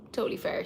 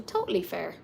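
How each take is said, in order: First: Whisper. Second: Said in the usual way. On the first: Real, not acted. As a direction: repeat Totally fair in a soft whisper. Repeats the phrase, then whispers it.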